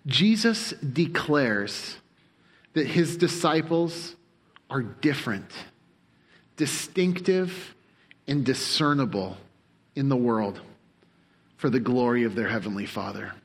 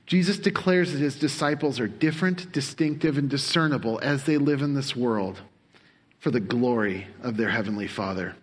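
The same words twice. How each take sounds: First: Slow, each phrase set apart with pauses; slow deliberate statement. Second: Said in the usual way. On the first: Shown as a demonstration. Preacher spelling out his summary for the congregation, slowly and deliberately. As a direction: read the summary line slowly, word by word. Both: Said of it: "Have it for you on the screen".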